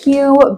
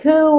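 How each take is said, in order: First: The name is said as 'hyoo' with a y-glide. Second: The name is said as 'hoo' without a y-glide. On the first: The speaker calls it right. "So you pronounce it Hugh" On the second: The speaker calls it wrong. "is it who?"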